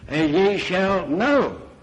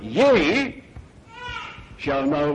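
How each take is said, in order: First: The stress falls on the word know. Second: The stress falls on the word ye. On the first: The focus is on the act of knowing. "then there's a different emphasis" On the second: The promise is addressed to the listeners themselves. "if I put the emphasis on the second word"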